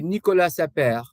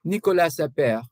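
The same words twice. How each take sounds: No difference in how they are said.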